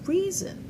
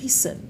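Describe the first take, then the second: First: The middle consonant is a buzzing z sound. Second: The middle consonant is a hissing s sound. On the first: The speaker calls it right. "Vous allez dire reason" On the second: The speaker calls it wrong. "Vous n'allez pas dire reason"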